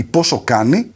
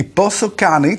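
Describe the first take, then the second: First: Said in the usual way. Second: Πόσο Κάνει said slowly with an English accent, stress on Πόσο. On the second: Shown as a demonstration. Host jokes about the app's name, English accent. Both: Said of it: "το λέω με αγγλική προφορά".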